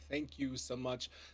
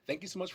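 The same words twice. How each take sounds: First: It sounds like a farewell winding down. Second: It sounds upbeat, as if carrying on. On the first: The show seems to be ending. The speaker calls it wrong. "I know it sounds like we're leaving" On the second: The show is still going on. The speaker calls it right. "I should change the tone of my voice"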